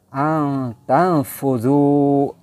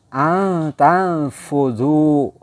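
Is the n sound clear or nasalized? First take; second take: nasalized; nasalized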